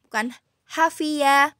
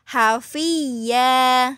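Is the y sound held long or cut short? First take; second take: short; long. First: The y sound is cut short. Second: The doubled y sound is held long. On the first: The speaker calls it wrong. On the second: The speaker calls it right. "ditahan dulu hafiyah"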